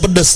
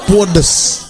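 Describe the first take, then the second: First: It has the plain standard Indonesian vowels. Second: It has the East Javanese intensified vowel. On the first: It is simply spicy. "bukan pedes" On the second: It is extremely spicy. "kalau orang Jawa Timur ... tapi pudes"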